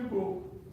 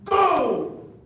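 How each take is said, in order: First: It is said flatly, without enthusiasm. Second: It is shouted with excited energy. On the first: The speaker is not celebrating the goal. "Você fala assim, ah, foi gol. ... então eu estava bravo" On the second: The speaker is celebrating the goal. "quando você está empolgado com o seu time"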